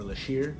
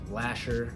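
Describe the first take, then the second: First: It is said with sh and ending in -ir. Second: It is said with sh and ending in -er.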